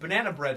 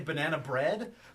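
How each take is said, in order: First: The stress falls on the word banana. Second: The stress falls on the word bread. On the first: It does not sound like a rapper name. "doesn't necessarily sound like a rapper" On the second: It sounds like a rapper name. "that sounds like a rapper"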